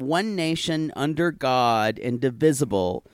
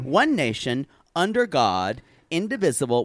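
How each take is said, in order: First: It runs on without a pause after 'nation'. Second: It has a clear pause after 'nation'.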